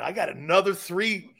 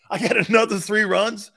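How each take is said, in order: First: Said in the usual way. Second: Pushed up louder, stoner hyped; louder stoner call. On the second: Shown as a demonstration. Stoked stoner athlete hyping his next three runs, louder. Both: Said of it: "repeats louder".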